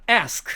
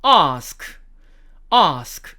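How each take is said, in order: First: American ask with the front vowel of "cat"; American accent. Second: British "ask" with long open "ah"; British long-a "ask", said twice; British accent. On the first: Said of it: "미국식 영어를 쓰기 때문에". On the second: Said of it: "영국식 발음으로는". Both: Shown as a demonstration.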